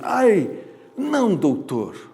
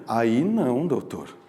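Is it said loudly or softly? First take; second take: loudly; softly. First: It is said loudly, as a cry. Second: It is said softly, not as a cry.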